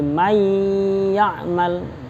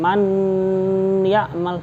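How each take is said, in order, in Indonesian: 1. Bunyi n menyatu dengan bunyi y yang mengikutinya. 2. Bunyi n diucapkan terpisah sebelum y. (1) "nun sukun langsung dimasukkan ke ya-nya" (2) "bukan man ya'mal, bukan begitu"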